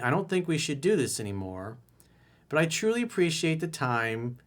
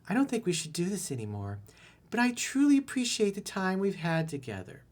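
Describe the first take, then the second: First: It is said in his normal voice. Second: It is said in a put-on girl's voice.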